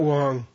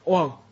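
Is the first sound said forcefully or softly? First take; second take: softly; forcefully. First: The first sound is soft, like English W. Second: The first sound is said with a little force. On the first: The speaker calls it wrong. "It's not Wang" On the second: The speaker calls it right. "And it's a little force to it"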